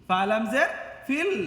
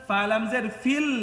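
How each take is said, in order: The two takes are said the same way.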